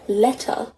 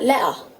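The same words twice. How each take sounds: First: It is spoken in a standard English accent. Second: It is spoken in a Cockney accent. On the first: "the proper English accent where you'd say letter" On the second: "the Cockney accent would pronounce it like letter"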